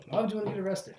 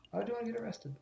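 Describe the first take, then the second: First: High character voice at speaking volume; raised-pitch question, fully voiced; puzzled character, fuller. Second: High, hushed character voice; small high-pitched puzzled question. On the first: Second take of same line. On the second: Acted. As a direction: ask it softly in a raised pitch. Game line voiced, then redone.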